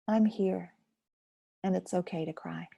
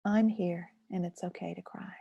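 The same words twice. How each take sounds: First: Reassuring friend. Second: Reassuring to yourself. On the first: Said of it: "As if you might say to a friend". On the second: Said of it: "You can say that to yourself". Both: Shown as a demonstration.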